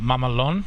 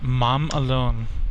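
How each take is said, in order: First: The words are said fast, merged into one. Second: The two words are said separately and clearly. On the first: It becomes a slang word meaning badass. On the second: It is the plain restaurant name.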